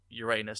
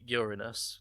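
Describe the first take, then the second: First: It is said so it sounds rude. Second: It is said so it avoids sounding rude. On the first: The speaker calls it right. "I will insist on calling it Uranus" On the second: The speaker calls it wrong. "to avoid the snickering of immature school children, they insist on calling it Uranus"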